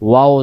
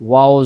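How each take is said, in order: No difference in how they are said.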